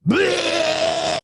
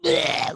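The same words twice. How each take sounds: First: Loud, high retching yell; a painful, horrific retching cry; vomit purging sound. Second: Mild mock retch. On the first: Retold or imitated. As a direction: belt out a violent heave. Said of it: "Someone's purging". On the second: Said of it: "But it's not like".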